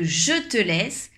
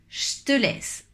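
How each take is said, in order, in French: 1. La voyelle de 'je' est entièrement prononcée. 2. La voyelle de 'je' est amuie, contractée. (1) "Au lieu de" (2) "on va faire une petite contraction à l'oral"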